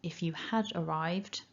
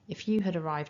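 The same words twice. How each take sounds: First: The word had is fully pronounced and stressed. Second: The word had is reduced and unstressed. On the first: "there I said it in a more strong way" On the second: "I'm not really emphasising it, it's just part of the grammar"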